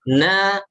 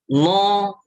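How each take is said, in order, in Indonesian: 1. Suku katanya ringan, dengan a yang jelas. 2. Suku katanya berat, terdengar mirip no. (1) "berarti tipis" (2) "bukan no"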